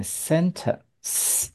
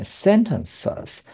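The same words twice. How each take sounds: First: Slow "sentence" ending on one drawn-out hiss; "sentence" with just two syllables, no extra "iz"; singular, no S. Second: "sentences" with an added final "suhz" syllable; three-syllable "sentences", ending clearly voiced; plural with S. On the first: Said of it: "如果去掉S嘞". (单数 sentence，去掉 S) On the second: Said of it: "加S就是念sentences". (复数 sentences，加 S 念) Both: Shown as a demonstration.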